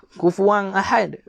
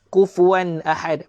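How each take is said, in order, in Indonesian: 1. Kata ini berakhir dengan bunyi sengau ng. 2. Kata ini berakhir dengan bunyi n yang jelas. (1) "Bukan kufuang" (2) "Lidah kita kekal di langit"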